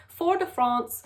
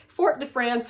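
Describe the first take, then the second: First: "Fort de France" slowly, France with a broad "ah"; imperfect French "Fort de France", France like "Frahnce"; attempted French pronunciation. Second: "Fort de France" with France rhyming with "dance"; "Fort de France" with a hard t and English France; Americanized mispronunciation. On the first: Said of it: "can't say it with the right accent". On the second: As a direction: say "Fort de France" as plain English, flat short a in France. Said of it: "such a wrong way of saying it". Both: Shown as a demonstration.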